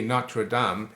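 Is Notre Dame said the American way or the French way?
French. It is said with a French pronunciation. "it's really Notre Dame in French"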